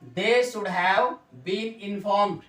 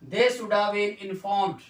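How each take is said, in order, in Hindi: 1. 'Should have' को दो पूरे शब्दों की तरह बोला जाता है। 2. 'Should have' को 'shoulda' करके छोटा बोला जाता है।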